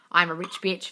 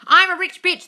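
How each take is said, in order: First: Said in the usual way. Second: Loud, high and thrilled; excited. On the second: Acted. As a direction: shout the title out with glee. Reads book title, then repeats plainly.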